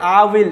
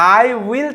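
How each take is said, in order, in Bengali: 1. এটা একটি সংকুচিত উচ্চারণাংশে পরিণত হয়। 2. এটা দুটি আলাদা পূর্ণ শব্দ হিসেবে বলা হয়। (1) "কন্ট্রাক্টেড ফর্ম" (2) "আই উইল থেকে"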